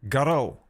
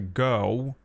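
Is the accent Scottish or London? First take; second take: Scottish; London. First: It is said in a Scottish accent. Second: It is said in a London accent.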